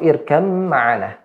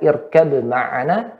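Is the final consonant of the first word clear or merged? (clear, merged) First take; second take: merged; clear. First: The b sound merges into the following m. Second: The b sound is pronounced clearly before m. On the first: "harus dimasukkan seolah hilang" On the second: "boleh dijelaskan"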